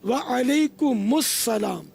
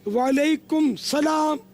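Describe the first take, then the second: First: A linking 'us' sound joins the two words. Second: The words join directly with no linking 'us' sound. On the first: The speaker calls it right. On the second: The speaker calls it wrong.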